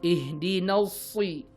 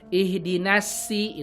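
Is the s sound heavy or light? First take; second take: heavy; light. First: The s is heavy, with the tongue back raised. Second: The s is light, with the tongue kept low. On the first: The speaker calls it right. "Harusnya gimana?" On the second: The speaker calls it wrong. "jangan sampai ihdinasi itu lidahnya masih di bawah"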